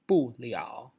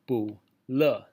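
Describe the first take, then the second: First: The second syllable is not a light 'le'. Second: The second syllable is a light 'le'. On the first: The speaker calls it right. "when it's together, it's pronounced 不了" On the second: The speaker calls it wrong. "this is not pronounced 不了. This is le like we know"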